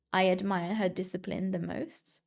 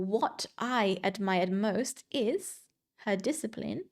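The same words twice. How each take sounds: First: Said in the usual way. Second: "What I admired most" said slowly, stressing discipline; cleft emphasis, slow. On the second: Shown as a demonstration. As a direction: build to her discipline. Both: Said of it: "instead of".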